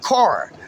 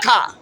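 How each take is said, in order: First: Every sound in the word is clearly pronounced. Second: Some sounds in the word are dropped or softened. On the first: This is how people from the speaker's area say it. The speaker calls it right. "we pronounce all the motherfucking syllables" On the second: This is how people from elsewhere say it. The speaker calls it wrong. "not car"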